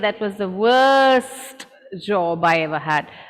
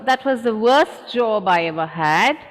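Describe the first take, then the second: First: The T in 'worst' is clearly pronounced. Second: The T in 'worst' is left out. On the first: The speaker calls it wrong. "We will not say" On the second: The speaker calls it right. "The t disappears"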